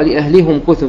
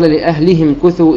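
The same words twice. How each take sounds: First: لأهلهم said with "-hum", a u vowel; damma on the haa. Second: لأهلهم said with "-him", an i vowel; kasra on the haa. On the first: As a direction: read لأهلهم as "li-ahlihum-kuthu". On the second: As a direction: read لأهلهم as "li-ahlihim-kuthu". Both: Shown as a demonstration. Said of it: "بضم الهاء".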